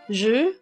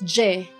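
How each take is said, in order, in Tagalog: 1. Binibigkas ito gamit ang tunog ng Pranses. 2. Binibigkas ito gamit ang tunog ng Ingles o Tagalog. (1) "Pero in French, pinopronounce mo to as je" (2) "sa Tagalog or English, ipo-pronounce mo yan as je"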